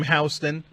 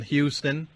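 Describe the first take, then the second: First: Houston corrected to HOW-stun; Houston with "how" as its first syllable; self-corrected pronunciation. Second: Houston said as HYOO-stun, by accident; Houston with "hue" as its first syllable; slip in pronunciation. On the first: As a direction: fix your slip, saying Houston as HOW-stun. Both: Real, not acted. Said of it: "You got me saying it now".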